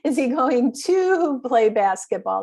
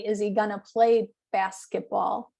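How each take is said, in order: First: Every word of 'going to' is said fully. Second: 'Going to' is squeezed into 'gonna'. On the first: "So it should be, is he going to?" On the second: "People just normally say"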